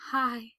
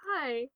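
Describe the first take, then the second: First: Louder, breathless hi of relief; breathless, relieved greeting. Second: A small, slightly raised squeak of a hi; a hint of a surprised squeak; light squeak. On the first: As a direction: gasp it out, overwhelmed with relief. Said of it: "Gerard replied breathlessly". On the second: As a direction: squeak it out, caught off guard. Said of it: "Frank squeaked". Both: A narrator's reading.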